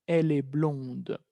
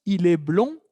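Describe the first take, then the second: First: "blonde" slow and falling, ending on a clear D; final D sounded. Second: "blond" ending on the nasal vowel, no D; silent final D. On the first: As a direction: answer the contrast with "blonde", D released. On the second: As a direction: lift the tune on "blond", D left mute. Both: Shown as a demonstration. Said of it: "cómo la D aparece en femenino".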